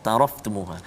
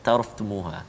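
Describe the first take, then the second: No difference in how they are said.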